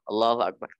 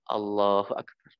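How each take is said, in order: First: It is said hurriedly, rushed together. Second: It is said calmly and unhurried.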